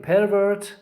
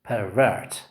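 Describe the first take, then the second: First: "pervert" stressed on PER; high, strong PER in "pervert"; first-syllable stress. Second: "pervert" stressed on VERT; low PER, strong VERT in "pervert"; second-syllable stress. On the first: Teacher contrasts the noun for students, stressing PER in "pervert". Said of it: "acts as a noun". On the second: Teacher contrasts the verb for students, stressing VERT in "pervert". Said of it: "the stress on the second syllable". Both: Shown as a demonstration.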